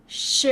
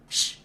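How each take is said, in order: First: SH carried on into a buzzing vowel; voiced SH. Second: SH as pure air without a vowel; voiceless SH. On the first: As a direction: say SH with the vocal cords vibrating after it. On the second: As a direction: say SH like a shush, no vibration. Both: Shown as a demonstration. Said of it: "Voice it. Don't forget".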